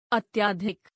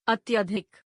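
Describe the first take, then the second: First: अत्यधिक with long "aa" after "ty"; mispronounced. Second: Said in the usual way. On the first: Shown as a demonstration. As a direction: say अत्यधिक as "atyaadhik". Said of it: "अशुद्ध". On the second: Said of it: "शुद्ध".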